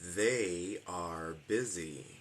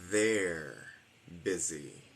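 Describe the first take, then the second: First: They and are are two separate full words. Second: They and are merge into one short syllable.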